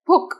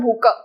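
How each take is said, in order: First: The word ends on a bare k sound. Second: The word ends with an added a vowel. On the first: The speaker calls it right. "so don't emphasize on ka, it's just bhuk" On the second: The speaker calls it wrong. "not bhuka"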